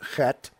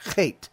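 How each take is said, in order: First: The vowel is a short e sound. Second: The vowel is a long ey sound. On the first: "Most people pronounce it chet" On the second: "It's got a zere in there as a vowel, and they pronounce it as chet"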